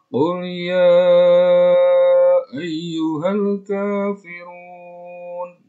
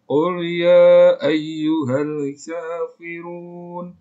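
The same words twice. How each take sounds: First: The vowel in 'ya' is held briefly. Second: The vowel in 'ya' is drawn out long. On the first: "dua ketukan bisa" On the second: "lima ketukan bisa"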